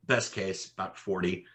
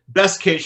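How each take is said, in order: First: Softer, level restatement of Best case; quiet repeat. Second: Higher and louder, punching best case; emphatic. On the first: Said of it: "quiet repeat of the same phrase". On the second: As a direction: land best case hard and high. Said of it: "emphatic first take, then repeated quietly". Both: Shown as a demonstration.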